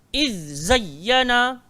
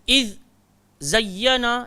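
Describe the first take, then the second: First: The two words run together quickly without stopping. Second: There is a brief stop between the two words. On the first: The speaker calls it right. "Dia pantas" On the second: The speaker calls it wrong. "bukan iz zayyana, dia bukan macam tu"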